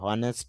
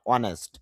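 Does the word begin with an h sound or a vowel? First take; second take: h sound; vowel. First: The word begins with an h sound. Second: The word begins with a vowel sound. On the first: The speaker calls it wrong. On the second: The speaker calls it right.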